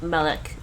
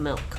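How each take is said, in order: First: An extra vowel is inserted before the final k. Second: The word is said without any extra vowel.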